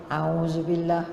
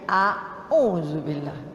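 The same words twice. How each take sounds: First: The opening vowels glide together as one sound. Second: The opening vowels are said as two separate sounds. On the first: This is the common everyday way of saying it. The speaker calls it wrong. "Kan kita banyak auzubillah minas" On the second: This is the proper way of saying it. The speaker calls it right. "Sebenarnya auzubillah"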